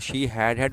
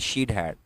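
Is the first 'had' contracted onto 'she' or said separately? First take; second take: separately; contracted. First: The first 'had' is said as a full word. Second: The first 'had' is shortened onto 'she'.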